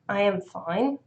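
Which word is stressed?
am. The stress is on "am".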